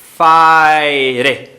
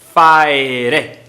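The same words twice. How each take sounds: The two takes are said the same way.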